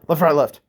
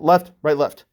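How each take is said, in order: First: The three words run together quickly. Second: Short pauses separate the three words.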